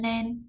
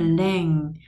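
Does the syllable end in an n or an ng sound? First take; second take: n; ng. First: The syllable ends in an n sound. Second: The syllable ends in an ng sound. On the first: The speaker calls it wrong. "Các bạn không đọc là len len, len là âm n" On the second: The speaker calls it right. "còn cái này là len. Mình phải ngân cái âm ngờ"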